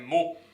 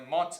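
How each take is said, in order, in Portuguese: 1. As letras finais escritas ficam silenciosas. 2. As letras finais escritas são pronunciadas em voz alta. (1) "é mot" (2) "não é mots"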